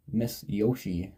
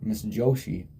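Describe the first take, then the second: First: Miss Yoshi said with a Y sound; wrong name. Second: Fixing it to Joshi with a sh sound; corrected name. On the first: Teacher's name first said Miss Yoshi with a Y. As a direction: Yoshi with a soft Y start, then corrected. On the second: Correcting the teacher's name to Joshi. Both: Shown as a demonstration. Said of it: "sorry, not Miss Yoshi".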